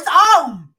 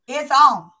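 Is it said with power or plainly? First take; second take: with power; plainly. First: It is said forcefully, with power. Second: It is said plainly, without extra force.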